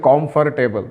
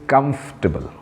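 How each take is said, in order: First: The first syllable has a full 'kom' vowel. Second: The first syllable is a reduced 'kum' sound. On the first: The speaker calls it wrong. "कुछ लोग तो इसे कॉम्फर्टेबल" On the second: The speaker calls it right. "But this is कंफर्टेबल"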